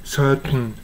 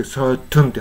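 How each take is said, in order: First: "certain" with t melting straight into n; "certain" as surt-n, no vowel before n; swallowed second syllable. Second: "certain" as sur-tun, t clearly sounded; crisp t plus vowel before the n in "certain"; released t. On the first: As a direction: hold back the t in "certain", humming out the n. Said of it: "ではなくて". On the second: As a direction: give "certain" a full second syllable. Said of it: "certainって発音したりね". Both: Shown as a demonstration.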